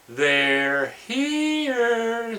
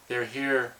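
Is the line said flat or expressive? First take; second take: expressive; flat. First: It is said in an expressive, dramatic way. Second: It is said in a flat, bored way.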